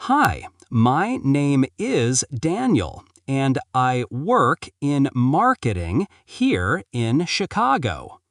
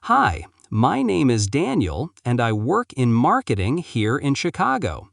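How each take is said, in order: First: Slower, deliberate take, x0.7; slow it down word by word; slowly. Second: Said in the usual way. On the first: Shown as a demonstration. Teacher models the slow take of the introduction. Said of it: "Say it slowly". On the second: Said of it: "Practice again".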